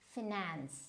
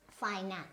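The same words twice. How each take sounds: First: The stress is on the second syllable. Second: The stress is on the first syllable. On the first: The speaker calls it wrong. "So finance is wrong" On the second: The speaker calls it right. "the stress will always be in the first syllable"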